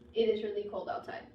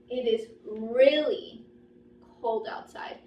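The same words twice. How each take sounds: First: No word stands out with extra stress. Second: The word really is stressed with higher pitch. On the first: "just no pauses" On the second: "My voice went high. My intonation got higher. There was like a bump"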